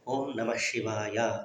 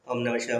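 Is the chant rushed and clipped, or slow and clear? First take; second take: clear; rushed. First: It is said slowly, with every syllable clear. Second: It is said fast, with syllables clipped off. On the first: The chant is done with full care. The speaker calls it right. "క్లియర్గా పదాలు రావాలి" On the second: The chant is being hurried to finish quickly. The speaker calls it wrong. "ఇక్కడ సగము శివుడు పక్కకి వెళ్ళిపోయింటాడు"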